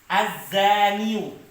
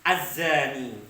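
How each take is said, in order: First: The word ends with a 'yoo' sound. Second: The word ends with a plain 'ee' sound. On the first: The speaker calls it wrong. "Sulit ketika dibaca" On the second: The speaker calls it right. "tetap ya-nya dibaca apa? Dibaca mati"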